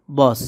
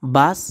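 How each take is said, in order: First: বস with a rounded o-like vowel in place of long a; Hindi pronunciation. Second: Said in the usual way. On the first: Shown as a demonstration. Teacher giving learners the Hindi word for bus, Hindi pronunciation. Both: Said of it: "হবে বস".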